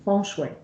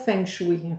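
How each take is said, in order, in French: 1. Il se prononce à la chinoise, avec des tons mélodiques. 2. Il se prononce à la française, comme il est écrit. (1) "non, non, c'est feng shui ... le chinois, c'est une langue qui est mélodieuse" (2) "les gens disent toujours feng shui ... on va le prononcer comme on le voit"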